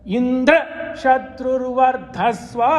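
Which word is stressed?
Indra. The higher pitch is on Indra.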